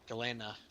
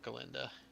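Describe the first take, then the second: First: The name is said without a d sound. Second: The name is said with a d sound. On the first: The speaker calls it right. "There's no D" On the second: The speaker calls it wrong. "not Galinda"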